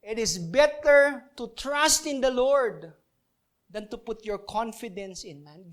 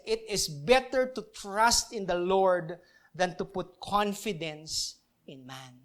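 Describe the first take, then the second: First: "better" leaned on, slow and firmly stressed; emphatic repeat. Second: Slow, careful scripture reading; slow reading of the verse. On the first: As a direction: repeat the verse slowly, hitting "better" hard. (diniin ang "better" nang mabagal at malakas) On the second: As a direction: read it out slowly, word by word. (dahan-dahang pagbasa ng talata) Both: Shown as a demonstration. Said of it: "It says".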